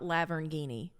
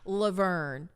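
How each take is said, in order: First: It ends with 'ghini', like Lamborghini. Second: It ends with 'vern'. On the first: The speaker calls it wrong. "not Lavernghini" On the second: The speaker calls it right. "Laverne, not Lavernghini"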